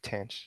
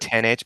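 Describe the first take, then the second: First: The term is contracted into one single syllable. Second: The letter H is spoken as a separate letter. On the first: "when you contract, it's like tanh" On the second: "You say ten H"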